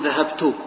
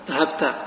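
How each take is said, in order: First: The word ends with a short u vowel. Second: The word ends with a short a vowel. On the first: "يمكن أحركها بالضم أقول" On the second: "وبالفتحة"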